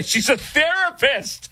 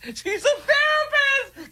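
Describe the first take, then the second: First: Laughing disbelief on a therapist. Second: Squeaky, slow mock falsetto; high mock voice. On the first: Acted. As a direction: say it through a laugh. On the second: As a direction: mimic her in high falsetto. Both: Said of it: "repeats it in a high mock voice".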